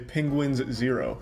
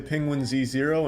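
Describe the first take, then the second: First: The Z is blended in as an s sound. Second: The Z is spoken as a separate letter name. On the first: "other times I'll just say Penguins Zero" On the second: "Sometimes I'll say Penguin Z Zero"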